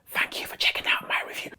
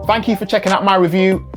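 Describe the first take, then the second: First: It is spoken in a whisper. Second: It is spoken in a normal voice.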